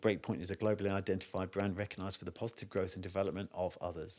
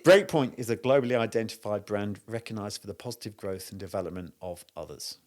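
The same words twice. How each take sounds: First: It is said fast. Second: It is said slowly.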